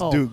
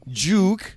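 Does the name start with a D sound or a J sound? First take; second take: D sound; J sound. First: The name starts with a D sound. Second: The name starts with a J sound. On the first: It is the name's proper form. The speaker calls it right. "It's Duke" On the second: It copies how someone else said the name. The speaker calls it wrong. "her Australian accent, she would say her D's as J"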